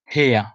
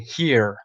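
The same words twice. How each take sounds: First: The final r sound is left out. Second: The final r sound is slightly pronounced. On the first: "a British speaker would say here" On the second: "Whereas an American, maybe he would say"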